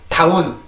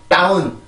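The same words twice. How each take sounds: No difference in how they are said.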